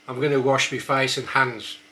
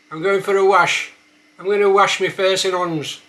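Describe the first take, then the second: First: Said in the usual way. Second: Higher and louder, broad Black Country; Black Country accent, loud. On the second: Shown as a demonstration. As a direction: hands said as 'ons, H dropped. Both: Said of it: "a few words".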